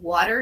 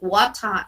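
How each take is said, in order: First: It is said with an American accent. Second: It is said with a British accent. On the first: "I can say water in English" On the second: "they say water in in, in British"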